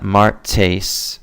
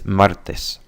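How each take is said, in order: First: The t has a puff of air. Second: The t has no puff of air. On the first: The speaker calls it wrong. "we tend to pl- blow as we say it. So it's not martes" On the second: The speaker calls it right. "There's no blowing"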